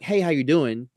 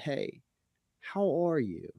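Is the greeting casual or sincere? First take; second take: casual; sincere. First: It is a quick, offhand passing greeting. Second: It is a slow, caring, attentive greeting.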